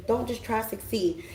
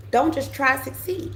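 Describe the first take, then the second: First: Softer, settled don't just try to succeed; quiet echo of the advice; soft repeat. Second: Higher, insistent don't just try to succeed; urging the listener, raised pitch; emphatic advice. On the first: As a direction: drop the volume and let it land. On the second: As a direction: lift and press the word don't. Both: Shown as a demonstration.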